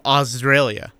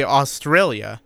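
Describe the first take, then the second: First: Australia said as oz-TRAIL-ya; buzzing z in place of the s in Australia; z sound in Australia. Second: Australia with a hissed s, aw-STRAIL-ya; s sound in Australia. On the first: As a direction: say Australia with Oz at the front. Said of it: "they say Australia instead of". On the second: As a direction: say Australia with a clear unvoiced s. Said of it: "instead of Australia". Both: Shown as a demonstration.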